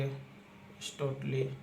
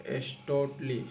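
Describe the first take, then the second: First: एस्टोटली drawn out very slowly and softer while writing; एस्टोटली said very slowly and quietly, as if writing it. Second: Said in the usual way. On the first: Shown as a demonstration. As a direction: stretch एस्टोटली out softly, syllable by syllable. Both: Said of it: "एस्टोटली इस तरह करेंगे".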